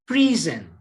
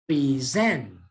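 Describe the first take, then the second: First: The stress is on the first syllable. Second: The stress is on the second syllable. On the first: The speaker calls it wrong. "bukan present" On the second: The speaker calls it right. "tapi present"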